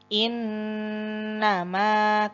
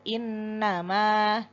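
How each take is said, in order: First: The nasal hum on the n is held long. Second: The nasal hum on the n is short. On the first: The speaker calls it right. "pada nun tasdid sempurnakan gunnahnya sekitar satu setengah alif" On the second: The speaker calls it wrong. "tidak sekedar innama"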